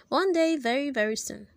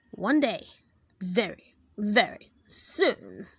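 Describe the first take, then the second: First: Said in the usual way. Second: Menacing vow. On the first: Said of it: "Chapter five". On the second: Acted. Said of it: "Mister Croop vowed".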